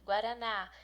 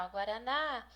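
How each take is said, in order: First: Said in the usual way. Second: Guaraná with a long, stressed final á; stress on last syllable. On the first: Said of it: "é a sílaba mais forte". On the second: Shown as a demonstration. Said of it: "é a mais forte, é a última".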